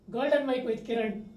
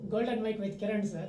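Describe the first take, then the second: First: It is said very loudly. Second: It is said loudly.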